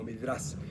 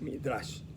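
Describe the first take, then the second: First: The word ends with a plain s sound. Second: The word ends with an sh sound. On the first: The speaker calls it wrong. "no se pronuncia sin la H, aquí no aparece, aparece como Midrash" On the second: The speaker calls it right. "pero el nombre correcto es Midrash"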